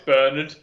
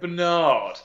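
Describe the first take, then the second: First: It is said in a British accent. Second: It is said in an American accent.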